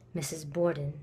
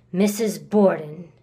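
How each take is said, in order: First: Low and soft; subdued, low and cool; cold, quiet naming. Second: Missus Borden said slowly and firmly; "Missus Borden" pronounced slow, low and deliberate; emphatic naming. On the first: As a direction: say the name under your breath. Naming the stepmother coolly. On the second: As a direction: lean on "Missus", drawing the name out. Insisting on the name. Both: Acted.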